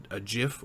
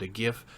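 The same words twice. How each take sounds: First: "gif" said with a soft g, like "jif". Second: "gif" said with a hard g, as in "gift". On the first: Host gives his preferred "gif", soft g. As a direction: say "gif" starting with a j sound. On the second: Host shows the rejected "gif", hard g. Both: Shown as a demonstration. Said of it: "if you're wrong, you pronounce it".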